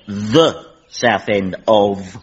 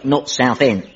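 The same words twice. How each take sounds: First: "The South End" pulled apart, very slowly; stress on THE. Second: Said in the usual way. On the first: Pretend. Bluffing about a birthplace to the captain, "The South End" stretched out. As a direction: draw out "The", then separate "South End". Stalling while redefining Southend as a region.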